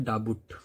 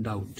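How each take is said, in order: First: डाबुट with the B sounded, said as da-but; wrong spelling-pronunciation. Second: डाउट with a silent B, said as dowt; correct pronunciation. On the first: Teacher showing students the wrong way, saying डाबुट with a B. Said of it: "नहीं तो ये क्या होता है". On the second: Teacher giving students the right way, saying डाउट without a B. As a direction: drop the B and say डाउट. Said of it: "लेकिन बी नहीं रहता". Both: Shown as a demonstration.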